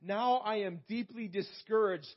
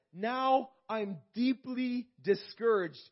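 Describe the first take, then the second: First: Said in the usual way. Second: "Now I'm deeply discouraged" drawn out slowly and pressed harder; slow emphatic lament. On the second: Shown as a demonstration. Preacher voicing the psalmist's despair, slow and heavy. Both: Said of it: "And he says".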